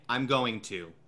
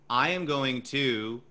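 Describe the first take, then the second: First: The voice closes off, sounding complete. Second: The voice stays open, sounding incomplete. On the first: The statement is complete. "You know that I'm finished with that because of context and because of the way that I inflected that sentence" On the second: More words are coming. "you know that I'm not finished"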